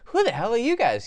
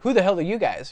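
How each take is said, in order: First: It sounds friendly and curious. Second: It sounds hostile and confrontational. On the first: The listener seems cool and worth meeting. "That is great" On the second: The listener is unwelcome and does not belong. "That's someone who's like, what are you doing here? You don't belong here"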